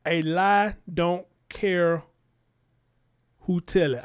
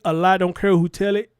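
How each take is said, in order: First: Slow, spaced out, pause before "who tell it"; slow and deliberate. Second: Louder, checking tone, rising on "tell it"; questioning. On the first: Vlogger restating a saying for viewers, slow and deliberate. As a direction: draw out "A lie don't care", then pause. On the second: Vlogger checking a saying with viewers, questioning. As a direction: ask "a lie don't care who tell it" as a check, voice up. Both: Real, not acted.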